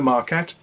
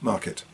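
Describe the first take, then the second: First: The second syllable has a full vowel. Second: The second syllable is reduced to schwa. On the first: The speaker calls it wrong. "instead of market" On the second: The speaker calls it right. "it's market"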